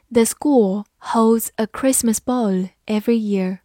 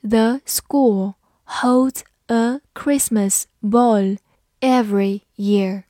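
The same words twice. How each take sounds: First: Said in the usual way. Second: Slow, careful word-by-word reading. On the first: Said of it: "慢读一遍". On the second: Shown as a demonstration. Teacher reading slowly for students to repeat. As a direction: read it slowly for learners to follow. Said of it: "好，慢读一遍".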